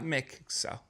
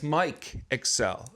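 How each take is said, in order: First: The first name is said with a short 'i' sound. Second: The first name is said with a long 'i' sound. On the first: The speaker calls it wrong. "it's not Mick Excel" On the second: The speaker calls it right. "my name is Mike Excel"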